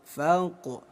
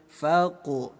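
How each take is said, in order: No difference in how they are said.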